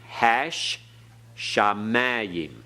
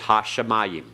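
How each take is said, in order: First: The sh sound is held long and doubled. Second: The sh sound is short and single. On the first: This is the biblical pronunciation. "notice the doubling dogish in the sheen" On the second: This is the modern pronunciation. "Modern Hebrew says hashamayim"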